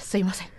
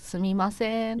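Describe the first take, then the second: First: It sounds hurried and rushed. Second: It sounds polite and careful.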